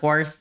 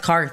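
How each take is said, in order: First: It begins with a kw sound. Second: It begins with a plain k sound. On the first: The speaker calls it wrong. "Not Quarth" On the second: The speaker calls it right. "that's why it's Karth, right?"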